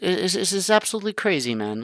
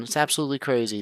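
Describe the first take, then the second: First: Much higher, excited it's absolutely crazy. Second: Said in the usual way. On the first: Real, not acted. Repeats phrase, first raised.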